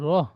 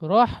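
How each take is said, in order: First: The final h is a light, breathy sound. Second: The final h is a harsh, throaty sound. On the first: The speaker calls it right. "ছোট হা" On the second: The speaker calls it wrong. "রহ নই"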